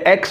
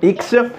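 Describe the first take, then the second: First: The letter name has an English pronunciation. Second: The letter name has a French pronunciation. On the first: "En anglais, X" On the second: "En français, pardon, X"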